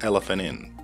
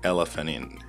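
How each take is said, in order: First: The T sound at the end of 'elephant' is dropped. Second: The T sound at the end of 'elephant' is dropped.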